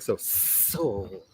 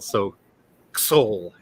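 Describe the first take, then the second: First: It is said with a hissing, snake-like voice. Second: It is said in a plain, ordinary voice.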